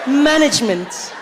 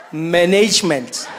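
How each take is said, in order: First: "Management" as MAN-ij-ment; higher, slow "Management", stressing MAN; corrective pronunciation. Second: Slow "Management" as man-NAYJ-ment; African-accented attempt. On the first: Acted. Listener coaching [name], slow "Management" as MAN-ij-ment. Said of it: "it's management". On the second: [name] trying to copy, "Management" with long African-accented NAYJ.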